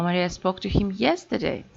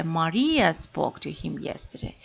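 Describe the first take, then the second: First: "Maria spoke to him yesterday" with YESTERDAY prominent; stress on yesterday. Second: "Maria spoke to him yesterday" with MARIA prominent; stress on Maria. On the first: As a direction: save the weight for "yesterday". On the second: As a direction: punch "Maria", the rest trailing. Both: Shown as a demonstration. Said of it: "stress may shift".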